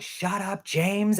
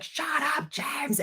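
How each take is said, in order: First: Raised-pitch mock yell, not loud; half-voiced imitation of screaming; imitated nephew's scream. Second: Very high mock shriek, kept soft; tiny squeaky imitation of a shriek; imitated escalating scream. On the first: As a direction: act out a kid's gleeful yell, held back. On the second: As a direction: squeal it as a pretend scream without the volume. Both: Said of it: "screaming in my face louder and louder".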